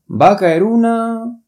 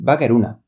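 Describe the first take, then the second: First: The final vowel of una is drawn out. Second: The final vowel of una is short. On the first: The speaker calls it right. "这个a 要长一点" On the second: The speaker calls it wrong. "不是va a caer una，这个完全没有意思"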